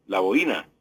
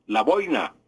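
First: "la boina" with bo-Í-na in three syllables, stress on the i; Colombian boína. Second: "la boina" with BOI-na in two syllables, oi gliding together; Spain's boina. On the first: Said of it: "nosotros decimos la boina". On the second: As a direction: say "la boina" as Spaniards do, stress on the o. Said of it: "Los españoles dicen". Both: Shown as a demonstration.

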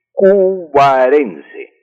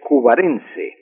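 First: "cubarense" dicho muy despacio, sílaba por sílaba; slow, syllable by syllable. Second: Said in the usual way. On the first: Shown as a demonstration. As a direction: alarga cada sílaba de "cubarense" como dictando. ("cubarense" pronunciado muy lento y silabeado) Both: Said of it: "el gentilicio de los nacidos en Cubará".

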